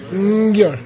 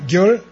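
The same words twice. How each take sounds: First: Gyur with a light nasal before the g, falling; gyur: slight n before the g; Tibetan gyur with prenasal. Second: Gyur with a plain g, rising; Gyur: no nasal onset; Tibetan gyur, plain. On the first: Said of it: "the second one has a slight prenasal". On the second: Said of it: "One more time... Gyur". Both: Shown as a demonstration.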